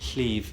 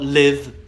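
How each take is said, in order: First: The word starts with a hissing sideways L sound. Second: The word starts with a plain voiced L sound. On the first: The speaker calls it right. "It's a voiceless lateral fricative" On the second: The speaker calls it wrong. "Not live"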